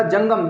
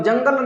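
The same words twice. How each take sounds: First: जंगम with a clear final म, slow; जंगम stressed, not जंगल; right word jangam. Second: जंगल said as the mistake, ending in ल; जंगल, ending in ल instead of म; wrong word jangal. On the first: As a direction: say जंगम ending firmly on म. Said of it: "जंगम, जंगल नहीं". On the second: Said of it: "जंगल नहीं". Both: Shown as a demonstration.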